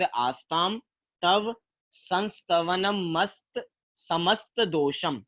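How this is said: Each word is said separately with pauses.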